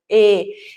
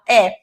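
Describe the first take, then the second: First: The vowel is said with a closed mouth. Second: The vowel is said with an open mouth. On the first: "eu tenho o E mais fechadinho" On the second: "eu tenho é mais aberto"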